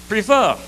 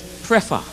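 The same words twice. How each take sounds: First: "prefer" said as pri-FUH, stress on the second syllable; Bajan prefer. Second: "prefer" said as PREF-uh, stress on the first syllable; Grenadian prefer. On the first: Bajan in the argument says his version, /pɹifə/. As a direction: say "prefer" as /pɹifə/, long i, dropped r. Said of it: "Bajan say the word is". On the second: Grenadian insists on his version, PREF-uh. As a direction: say "prefer" as /pɹɛfə/, short e up front. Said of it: "Grenadian say the word is". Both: Shown as a demonstration.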